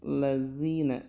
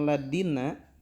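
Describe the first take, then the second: First: The middle consonant is a soft dh. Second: The middle consonant sounds like a d. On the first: The speaker calls it right. "Jadi harus lazina" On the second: The speaker calls it wrong. "Ketika kita mengucapkan ladina, maka enggak sah bacaan Al-Fatihahnya"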